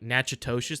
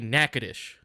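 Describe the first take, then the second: First: It is pronounced letter by letter as spelled. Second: It is pronounced the local way, unlike spelling. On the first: "it's phonetically said like" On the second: "but we say"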